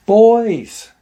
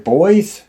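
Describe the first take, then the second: First: Loud, high drawn-out call that falls away; retold yell. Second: Loud, high call sweeping upward; questioning call. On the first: Aunt yells from the deck for the boys, calling out. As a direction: imitate her yelling for the kids. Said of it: "She yells for 'em to come". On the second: Retold or imitated. Aunt at the wood line calls to the boys, questioning shout. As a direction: call out as if unsure who is there.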